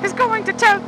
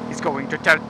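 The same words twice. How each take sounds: First: High goofy voice. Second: Said in the usual way. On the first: Pretend. Sings voice alternation.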